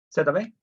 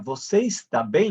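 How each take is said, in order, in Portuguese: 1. O verbo é encurtado para tá. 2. O verbo é falado por completo, como está. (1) "Você fala" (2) "Ninguém fala assim"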